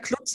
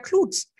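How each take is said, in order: First: The U vowel is short. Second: The U vowel is long. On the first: The speaker calls it wrong. "immer falsch gesagt" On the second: The speaker calls it right. "es klingt auch einfach besser mit einem längeren U"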